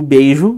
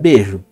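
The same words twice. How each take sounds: First: The vowel is a full diphthong 'ei'. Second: The vowel is a single plain 'e'. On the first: This is the form as written. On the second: This is the form in everyday speech.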